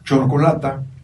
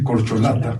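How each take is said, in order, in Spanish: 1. La palabra empieza con el sonido ch. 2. La palabra empieza con el sonido k. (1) "chorcolata en lugar de decir corcholata" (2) "en lugar de decir corcholata"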